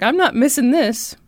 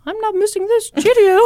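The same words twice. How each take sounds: First: Said in the usual way. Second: A high, loud mock British accent on "I'm not missing this, Cheerio"; mock British lady. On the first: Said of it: "she was like". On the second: Judge's wife gushing about Liberace, in a mock British accent. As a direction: play a British lady, high-pitched and hammed-up.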